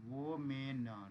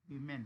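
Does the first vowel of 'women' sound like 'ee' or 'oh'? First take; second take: oh; ee. First: The first vowel sounds like 'oh'. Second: The first vowel sounds like 'ee'. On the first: "अपन वोमेन पढ़ते हैं" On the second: "इसी को वीमेन भी पढ़ते हैं"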